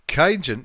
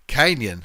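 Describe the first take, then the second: First: The middle consonant is a 'j' sound. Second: The middle consonant is a 'ny' sound. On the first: The speaker calls it wrong. "I've got a feeling I'm pronouncing it incorrectly" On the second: The speaker calls it right. "Canyon, not Cajun"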